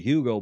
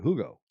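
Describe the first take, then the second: First: The name has an English pronunciation. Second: The name has a German pronunciation. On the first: "you Anglos like to say Hugo Boss" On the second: "pronounce it the way the Germans do"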